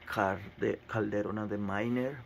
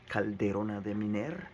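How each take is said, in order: First: The name is said with non-Spanish pronunciation. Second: The name is said with Spanish pronunciation. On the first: The speaker calls it wrong. "If you're not Spanish speaking person, will say that" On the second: The speaker calls it right. "but it's Spanish is"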